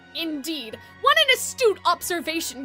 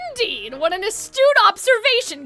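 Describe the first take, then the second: First: It is said in a put-on evil villain voice. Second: It is said without the evil villain voice.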